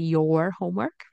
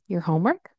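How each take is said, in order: First: 'Your' is said as a full 'your' sound. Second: 'Your' is reduced to a short 'yer' sound. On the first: "instead of your homework" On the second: "you notice I said your, right? Y E R"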